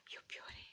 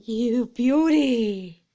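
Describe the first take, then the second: First: A hushed echo of triumph; whispered cheer. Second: Loud, slow drawn-out cry of triumph; triumphant cheer. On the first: Owner whispering her joy right after the cheer. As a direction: whisper you beauty softly. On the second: Owner cheering loudly after the lights survive. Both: Real, not acted.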